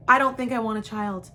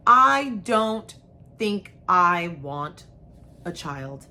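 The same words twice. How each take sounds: First: Fast, just get it out; rushed plain confession; quick blurted confession. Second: Halting, dragged out with long pauses; halting first try at the confession; slow hesitant confession. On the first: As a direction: blurt it in one breath, relieved. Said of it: "it's nice to just say that". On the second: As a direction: ease it out word by word, unsure. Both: Shown as a demonstration.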